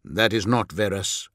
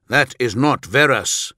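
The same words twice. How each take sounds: First: Said in the usual way. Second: "that is not Verus" higher, each word firmly pressed; firm repeat. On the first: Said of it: "Vulcan frowned". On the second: A narrator's reading. Vulcan correcting his equerry, "that is not Verus" repeated firmly. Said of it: "Vulcan repeated".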